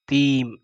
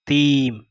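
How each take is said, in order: Both takes have the same delivery.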